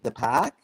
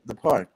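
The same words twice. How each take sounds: First: It is said in a Boston accent. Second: It is said in a New York accent.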